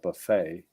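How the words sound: It is said in an American way.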